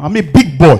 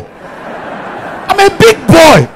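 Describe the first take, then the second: First: Said in the usual way. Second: Put-on high, slow drawn-out big-boy boast; big boy swagger. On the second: Comedian flaunting to the audience, high and slow. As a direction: stretch out big boy like a show-off.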